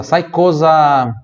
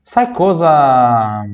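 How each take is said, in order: First: "cosa" said slowly with a z sound; slow Italian cosa. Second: "sai" stressed in a slow repeat; slow "sai cosa" repeat. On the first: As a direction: draw out "cosa" as kosa. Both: Shown as a demonstration. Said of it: "coisa não, cosa".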